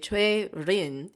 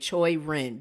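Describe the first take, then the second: First: The name is said with a Korean pronunciation. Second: The name is said with an American English pronunciation. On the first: The speaker calls it wrong. "because if I say Choi Rin, it's so close to Choi-rin" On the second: The speaker calls it right. "I'm going to say her name the, the American English way"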